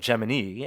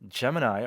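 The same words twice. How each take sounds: First: It uses the NASA pronunciation of the word. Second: It uses the everyday pronunciation of the word.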